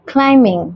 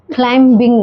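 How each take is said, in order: First: Climbing with no B, like climing; silent B. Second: Climbing with the B sounded; wrong climbing, clim-bing; wrong pronunciation. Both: Shown as a demonstration. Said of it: "climbing नहीं".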